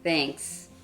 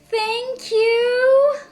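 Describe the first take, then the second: First: It sounds reluctant and unappreciative. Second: It sounds sincere and appreciative.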